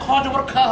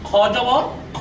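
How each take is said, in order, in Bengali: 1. অক্ষরটি একটি স্পষ্ট 'aa' স্বরধ্বনি দিয়ে শেষ হয়। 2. অক্ষরটি স্পষ্ট 'aa' স্বরধ্বনি ছাড়া শেষ হয়। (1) "খ জবর খা হওয়া উচিত, কিন্তু তা হবে না" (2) "এখানে ব্যতিক্রমটা হবে খ জবর খ হবে"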